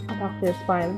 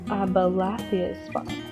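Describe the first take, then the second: First: The name is said with four syllables. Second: The name is said with five syllables. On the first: The speaker calls it wrong. "I thought it was pronounced" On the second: The speaker calls it right. "but it was Abal Abalathia's spine"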